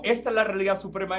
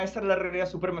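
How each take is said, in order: First: High mocking insistence; mock claimant. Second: Mock claimant. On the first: A hint of mocking voices claiming supremacy. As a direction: parody each tradition's claim. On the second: A hint of another mocking claim to supremacy. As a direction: parody a second tradition's claim. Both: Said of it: "como me parecía eso".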